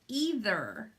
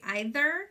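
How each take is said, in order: First: The first vowel sounds like 'ee'. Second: The first vowel sounds like 'eye'. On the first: "with an E" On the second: "like with an I"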